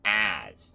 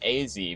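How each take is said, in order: First: The name is said as one short word. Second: The name is spelled out as two letters. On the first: The name is read as an ordinary name. "because like uh, it, it is a name still" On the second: The name is read as initials. "because it's uh, it has a capital A followed by a Z"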